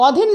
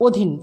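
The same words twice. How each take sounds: First: অধীন opened with an "aw" vowel; as written. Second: অধীন opened with a closed "o"; pronounced with O. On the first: Teacher reading out the spelling, অধীন with open aw. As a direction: say অধীন as "aw-dhin". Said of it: "অধীন লিখেছি". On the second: Teacher giving the spoken form, অধীন with closed o. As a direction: say অধীন as "o-dhin". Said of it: "কিন্তু উচ্চারণ করেছি". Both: Shown as a demonstration.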